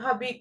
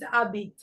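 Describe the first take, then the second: First: The word begins with an audible h sound. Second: The word begins directly with the vowel. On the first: The speaker calls it wrong. "you don't say shabit, tu habit" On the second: The speaker calls it right. "No, it's abit"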